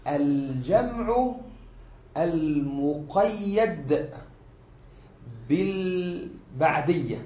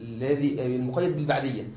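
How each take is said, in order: First: Each word held apart, very slow; slow dictation. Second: Said in the usual way. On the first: Shown as a demonstration. Teacher spelling out the first kind for students. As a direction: lay out الجمع المقيد بالبعدية word by word. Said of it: "يشمل". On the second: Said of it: "teacher repeats the term".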